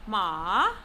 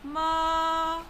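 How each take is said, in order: First: The pitch dips down and then rises again. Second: The pitch rises from middle to high. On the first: "It is pronounced using falling rising tone" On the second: "It is said with the mid rising tone"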